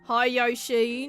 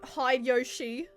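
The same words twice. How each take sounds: First: It is said in a broad Australian accent. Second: It is said without a broad Australian accent. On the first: The speaker calls it right. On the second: The speaker calls it wrong.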